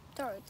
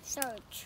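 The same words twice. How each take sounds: First: Said in the usual way. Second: Whispered repeat of Church; whispering. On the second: Shown as a demonstration. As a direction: whisper the word Church back.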